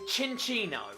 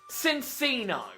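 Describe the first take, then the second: First: The name begins with a 'ch' sound. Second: The name begins with an 's' sound. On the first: The speaker calls it right. "its name is Cinccino" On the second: The speaker calls it wrong. "not Cinccino"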